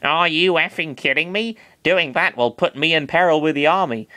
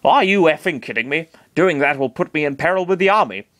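First: Are you effing kidding me read in Chris's slightly higher voice; wrong voice. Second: Are you effing kidding me in Master Hand's voice, near the narrator's own; corrected take as Master Hand, close to the narration. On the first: Master Hand's line read first by mistake in Chris's voice. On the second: Master Hand scoffs at Chris's request, in his own near-plain voice. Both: Acted. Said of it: "that was actually Master Hand talking".

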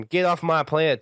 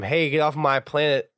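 First: Put-on country boy accent, pitched higher; Buck. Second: Lightly voiced gruff line, badly faked; a half-hearted impression, slightly higher pitched; Buck. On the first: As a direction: put on a country twang, imitating. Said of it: "in his best country boy accent". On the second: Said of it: "I didn't do a very good job".

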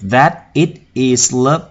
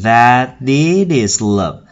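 First: Slow, separate words in "that it is love"; words before linking. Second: Slow "that it is love" with each final consonant carried into the next vowel; linked sounds. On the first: Teacher showing where sounds must join, words before linking. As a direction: lay out "that it is love" word by word. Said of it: "Chỗ này chúng ta cần phải nối âm". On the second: Teacher showing how the lyric links up, linked sounds. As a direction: run THAT, IT and IS together. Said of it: "Chúng ta nối âm thành". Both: Shown as a demonstration.

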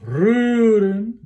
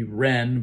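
First: Rühren higher, second syllable fading; decrescendo second syllable. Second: Ren with a full stressed vowel; don't stress the ren; wrong stressed ending. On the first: Choir coach showing the fading second syllable. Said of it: "marked with a decrescendo". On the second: Choir coach showing the wrong heavy ending. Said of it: "We don't want to be ren". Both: Shown as a demonstration.

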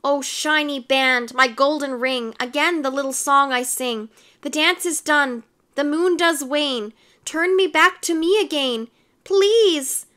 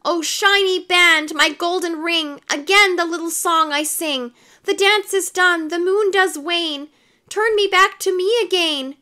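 First: Sung, rhythmic spell verse rising to a plea; sung, lightly sing-song magic verse; half-sung chant. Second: Sung, high, loud sing-song spell; sung, raised-voice rhythmic magic verse. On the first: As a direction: chant the rhyme, climbing higher toward the end. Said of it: "stopped and sang". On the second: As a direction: belt out the rhyme in urgent chant. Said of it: "Anthony loudly sang". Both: A narrator's reading.

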